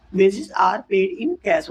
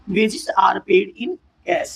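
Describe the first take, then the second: First: Slow, word by word; slow repeat. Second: Very slow, word by word; teacher dictating slowly; slow example read. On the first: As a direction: repeat it slowly for the class. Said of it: "repeat of example". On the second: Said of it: "example देखिए". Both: Shown as a demonstration.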